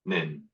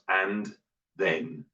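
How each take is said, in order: First: The words shrink to a single short syllable. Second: Both words are said fully and carefully. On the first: "and the jungle" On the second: "here's the greenhouse"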